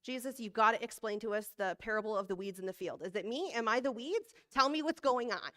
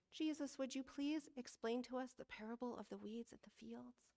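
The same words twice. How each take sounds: First: Mock-pleading, rising to louder urgency; hammed-up anxious demand; imagined blunt disciple. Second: Soft, measured, polite scripture reading; hushed, reverent disciple asking politely; good Bible reading voice. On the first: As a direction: pester Jesus for an answer, building as you go. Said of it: "it might have actually sounded like this". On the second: Acted. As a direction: read it gently like a proper Bible reader. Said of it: "in my good Bible reading voice".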